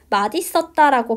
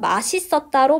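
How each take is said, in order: First: The middle consonant sounds like d. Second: The middle consonant sounds like s. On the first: This is the standard pronunciation. "원칙은 맛있었다라고 발음하고" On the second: This pronunciation is also permitted. "맛있었다로 발음하는 것도 허용해 주지만"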